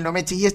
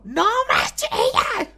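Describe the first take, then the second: First: Said in the usual way. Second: Squeaky, much higher mock shriek. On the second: Host mocking the contestant's yell, squeaky mock shriek. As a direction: send up her shrill telling-off.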